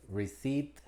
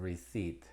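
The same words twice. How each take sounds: First: Receipt said "risit" with no p and a rising tune; silent p demo. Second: Receipt said slowly and softly as "risit" with no p; slow silent p demo. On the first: Teacher demonstrating silent p in receipt, rising tune. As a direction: say receipt as "risit", lifting the end. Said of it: "Con T". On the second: Teacher repeating receipt slowly and softly for learners. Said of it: "es muda en muy pocas palabras". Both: Shown as a demonstration.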